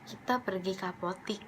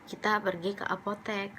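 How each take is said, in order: First: The last syllable of apotek has an 'i' vowel. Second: The last syllable of apotek has an 'e' vowel. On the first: This is the everyday spoken form. The speaker calls it wrong. "kita biasa nyebut apotik" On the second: This is the standard form. The speaker calls it right. "Yang benar itu sebenarnya apotek, pakai e"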